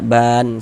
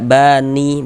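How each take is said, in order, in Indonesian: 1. Kata ini berakhir dengan bunyi konsonan. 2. Kata ini berakhir dengan bunyi vokal. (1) "tapi dibaca ban seperti itu" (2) "Jangan dibaca bani baru berwakaf, jangan"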